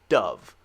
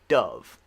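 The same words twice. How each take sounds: First: The vowel is a short U sound. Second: The same.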